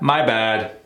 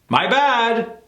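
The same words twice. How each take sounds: First: The pitch goes down at the end. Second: The pitch goes up at the end. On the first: "When it's negative, it has a tendency to go down in tone" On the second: "If we use the same tonality for what's up with my bad"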